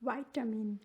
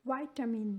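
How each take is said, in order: First: It is said in an American accent. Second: It is said in an American accent.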